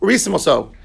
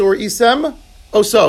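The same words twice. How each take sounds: First: The words run together like one word. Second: A small pause separates the two words.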